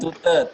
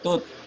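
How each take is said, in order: First: An extra vowel is sounded after the final t. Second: It ends sharply on the t, no vowel after. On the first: The speaker calls it wrong. "Bukan tute" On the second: The speaker calls it right. "bacanya tut"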